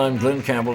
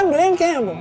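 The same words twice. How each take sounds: First: It is said softly at low volume. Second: It is said loudly with strong projection. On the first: It could not be heard over the applause. The speaker calls it wrong. "It wasn't audible" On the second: It could be heard over the applause. The speaker calls it right. "I had to say it like that to get the volume to be above the audience"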